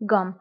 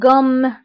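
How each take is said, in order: First: The m sound is short and light. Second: The m sound is pressed and held longer. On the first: "الا عندي غير ام وحده فغنطق قام" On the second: "حيت عندي دوزيم فكنقول قام. قام. كنضغط على هاد الام"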